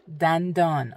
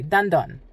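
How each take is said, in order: First: It is said slowly and carefully. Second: It is said quickly and naturally.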